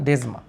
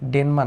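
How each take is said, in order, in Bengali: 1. মাঝের ব্যঞ্জনটি 's'-এর মতো একটি ধ্বনি। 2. মাঝের ব্যঞ্জনটি 'n' ধ্বনি। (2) "ডেনমা না"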